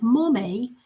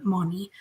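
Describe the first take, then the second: First: Imitated toddler's "mommy" with a hint of British; little British accent. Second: Said in the usual way. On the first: Grandma mimicking how the toddler says mommy, little British accent. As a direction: say "mommy" as "mo-may", slightly British, rising. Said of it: "got a little British accent when he says it". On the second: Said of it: "or I should say the way".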